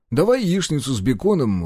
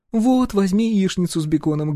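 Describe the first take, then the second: First: Said in the usual way. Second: A firm woman choosing for him; bossy wife. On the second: A narrator's reading. Wife orders for husband.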